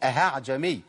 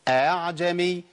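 First: An h sound is inserted after the first vowel. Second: The hamza is softened with no h sound. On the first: The speaker calls it wrong. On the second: The speaker calls it right.

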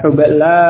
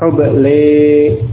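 First: The final vowel is an open a sound. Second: The final vowel is tilted toward an e sound.

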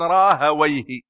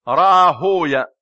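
First: The name is said with a -wayh ending. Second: The name is said with a -wiya ending. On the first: This is how Arabic grammarians pronounce it. "وأهل اللغة يقولون راهويه" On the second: This is how hadith scholars pronounce it. "أهل الحديث يقولون راهوية"

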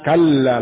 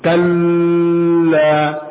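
First: The word is said straight through without holding. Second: The sound in the word is held too long. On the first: The speaker calls it right. "Kalla langsung" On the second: The speaker calls it wrong. "Kalla ini terlalu tahan"

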